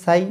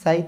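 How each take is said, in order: The two takes are said the same way.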